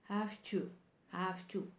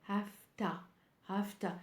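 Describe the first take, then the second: Both takes have the same delivery.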